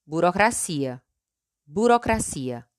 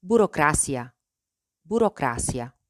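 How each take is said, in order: First: "burocracia" in Portuguese, stressed on CI. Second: "burocracia" in Spanish, stressed on CRA. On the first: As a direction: say "burocracia" as bu-ro-cra-SEE-a. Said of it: "En portugués". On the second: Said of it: "En español". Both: Shown as a demonstration.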